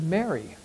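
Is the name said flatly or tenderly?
flatly. The name is said plainly, without emotion. The name is simply read off the page. The speaker calls it wrong. "I just said it that way because, you know, there it is"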